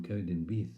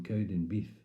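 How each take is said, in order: First: Said in the usual way. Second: "Cowdenbeath" ending in f for th; impaired speech. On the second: Acted. Poet naming the dentist's town Keith's way, impaired "Cowdenbeef". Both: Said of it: "to Keith".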